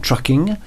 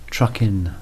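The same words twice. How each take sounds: First: The word ends with a full -ing sound. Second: The word ends with a clipped -in sound. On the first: The speaker calls it wrong. "Not trucking" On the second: The speaker calls it right. "with an apostrophe"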